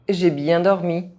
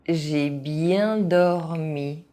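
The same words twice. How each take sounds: First: It is said fast, with some sounds dropped. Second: It is said at an ordinary speaking pace. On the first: This is how native speakers say it. "fast, as a native speaker would do" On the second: This is the pace learners should use. "at a normal pace"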